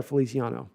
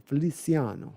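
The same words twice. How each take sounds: First: Said in the usual way. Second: Feliciano rolled out slowly, Italian style; savoured Italian Feliciano. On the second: Shown as a demonstration. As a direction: relish every syllable of Feliciano like an Italian. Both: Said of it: "And I just like saying his name".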